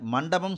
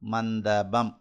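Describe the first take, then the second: First: The nasal is retroflex, tongue curled back. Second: The nasal is dental, tongue touching the teeth. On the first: The speaker calls it right. "இந்த நாவினுடைய நுனி அந்த மேல் அன்னத்தினுடைய நடுப்பகுதி போய்" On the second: The speaker calls it wrong. "பல்லுக்கு மேலே தான் தொடும்"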